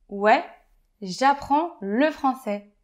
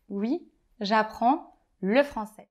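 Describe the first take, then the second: First: The first word is pronounced 'ouais', ending like 'way'. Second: The first word is pronounced 'oui', ending like 'wee'. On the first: It is casual, familiar speech. "c'est dans un langage familier" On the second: It is standard, neutral speech. "au lieu de dire"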